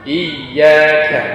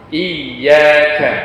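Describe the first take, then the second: No difference in how they are said.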